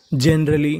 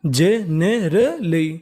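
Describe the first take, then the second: First: Said in the usual way. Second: Generally very slowly as je-ne-ra-lee, each part stretched; syllable by syllable. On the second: Shown as a demonstration. Teacher breaking down a word for learners, syllable by syllable. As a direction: sound out generally in four drawn parts: je, ne, ra, lee. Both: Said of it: "तो meaning बनी".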